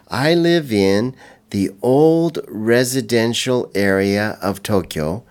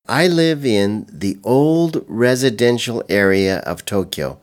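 First: The sentence is spoken slowly and carefully. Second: The sentence is spoken at a normal pace.

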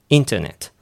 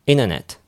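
First: The t after the n is pronounced. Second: The t after the n is dropped.

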